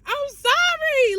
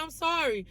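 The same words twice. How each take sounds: First: "I'm sorry" wailed much higher and slow, fake crying; mock wailing sorry. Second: "I'm sorry" said higher but much softer, meek; soft mock sorry. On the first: Pretending to beg Papa's forgiveness, hammed-up crying wail. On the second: Telling Papa she's sorry, meek and soft. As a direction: murmur "I'm sorry" meekly.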